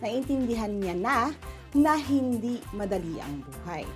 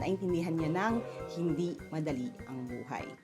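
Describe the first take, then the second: First: The linking word is said as two separate syllables. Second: The linking word is contracted into one syllable. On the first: "pwede natin itong sabihin na" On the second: "para swabe ang pagbigkas"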